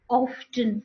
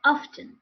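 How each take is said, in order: First: Often with a round O and sounded T; often slowly, mother-tongue O; wrong pronunciation. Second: Often with an open "ah" start; often modelled high, with opened O; correct pronunciation. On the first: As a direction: say often as "awf-ten", drawn out. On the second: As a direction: say often as "ahf-ten", higher. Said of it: "What are the correct pronunciations then?". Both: Shown as a demonstration.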